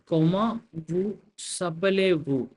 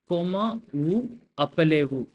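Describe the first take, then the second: First: The s sound joins onto appelez. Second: Appelez starts with no linking s sound. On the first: The speaker calls it right. "I'm reading it as" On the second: The speaker calls it wrong. "and not as"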